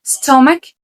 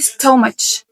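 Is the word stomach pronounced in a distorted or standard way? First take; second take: standard; distorted. First: The word is pronounced in the standard way. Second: The word is pronounced in a distorted way. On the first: The speaker calls it right. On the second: The speaker calls it wrong.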